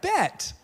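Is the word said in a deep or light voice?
light. It is said lightly, from the front of the mouth. The speaker calls it wrong. "you can't be like, bet, all right? You can't say it like that"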